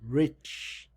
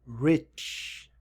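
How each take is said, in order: No difference in how they are said.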